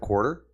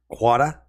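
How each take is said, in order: First: The R sound is clearly pronounced in the word. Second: The R sound is dropped from the word. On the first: The speaker calls it right. "instead of quarter" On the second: The speaker calls it wrong. "I would say things more like um, quada"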